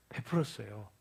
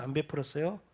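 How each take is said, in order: First: 베풀었어요 answered lower and softer, falling; answering quietly. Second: 안 베풀었어요 asked with a rising question tune; 안 베풀었어요 rising, inviting the answer; rhetorical question. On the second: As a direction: ask 안 베풀었어요 up at the end, prompting the congregation. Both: Shown as a demonstration.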